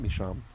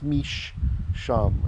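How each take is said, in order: First: The sh sound is short and single. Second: The sh sound is held long and doubled. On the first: This is how the word is said today. "we today just pronounce it misham" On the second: This is the original form of the word. "originally, like this"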